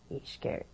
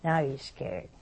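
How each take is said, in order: First: Hushed, fearful whisper. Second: Said in the usual way. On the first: A narrator's reading. Teller repeats the man's fear in a hushed whisper. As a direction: breathe the words out in fear.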